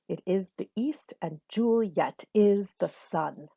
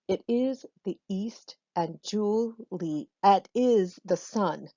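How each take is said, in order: First: Juliet is said with two syllables. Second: Juliet is said with three syllables. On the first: The speaker calls it right. "slamming that two syllable part of her name into just one syllable" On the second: The speaker calls it wrong. "I hope that feels awkward to you"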